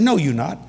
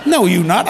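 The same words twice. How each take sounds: First: Mild, matter-of-fact denial; disbelieving. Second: Louder mock-incredulous denial; emphatic disbelief. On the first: Retold or imitated. Partner doubts the preacher is really calling, mildly disbelieving. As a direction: contradict the caller without raising the voice. Retold phone quarrel, first denial. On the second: Partner still doubts it's the preacher calling, loudly disbelieving. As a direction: push the denial out hard and loud. Retold phone quarrel, denial escalates.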